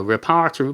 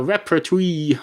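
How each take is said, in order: First: "repertory" with the stress moved on, rih-PAR-tuh-ree; groping for a word. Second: "repertory" stressed on the first syllable, REP-uh-tree; groping for a word. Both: Real, not acted. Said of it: "what's it called?".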